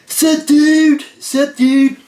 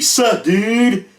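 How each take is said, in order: First: Much higher and louder mock surfer dude; hammed-up dude greeting. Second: A hint of a surfer dude, pitched higher; mock dude greeting. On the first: Retelling a stranger's repeated reply as a loud, high mock dude. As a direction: crank the bro greeting way up, hammed-up. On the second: Retelling a stranger's chat reply in a mild dude voice. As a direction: toss off a lightly voiced bro greeting. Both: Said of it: "And he said".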